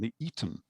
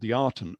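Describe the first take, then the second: First: The name sounds like the word Eton. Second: The name does not sound like Eton. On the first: The speaker calls it right. "we should really pronounce it as being the Eton, a bit like the old public school" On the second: The speaker calls it wrong. "It was called the Aten, or actually"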